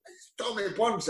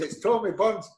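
First: "It's Tommy Burns." said much softer, barely voiced, as if mouthing it; mouthed aside. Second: Said in the usual way. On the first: Agent mouthing the caller's name across the car, much softer. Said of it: "Bill McMurdo's giving". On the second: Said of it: "He says".

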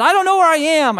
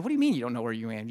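First: High, loud mock-panicked wail; freaking out. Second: Quick, lower, puzzled retort; baffled husband. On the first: Lost wife phones her husband, freaking out. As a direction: imitate a frantic caller, loud and high. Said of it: "She was freaking out". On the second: Retold or imitated. Husband questions his lost wife on the phone, baffled. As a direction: retell a rapid, disbelieving question. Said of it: "I said".

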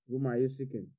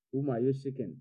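The two takes are said the same way.

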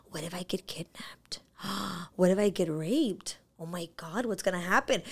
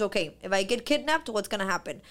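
First: Whispered, softer, with panicked gasps; frightened whisper. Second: Said in the usual way. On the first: Retold or imitated. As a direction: breathe out the fear as a hushed, anxious whisper. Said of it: "my fear starts sipping in". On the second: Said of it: "controlling fear, of facing fear".

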